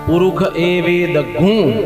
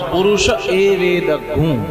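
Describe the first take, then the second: First: It is recited in the non-Kanva school's style. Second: It is recited in the Kanva school's style.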